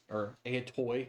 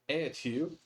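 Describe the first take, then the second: First: The word is said in the commonly taught pronunciation. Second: The word is said in an alternative pronunciation system. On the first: "if you learned it the other other way" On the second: "I just use a different pronunciation system"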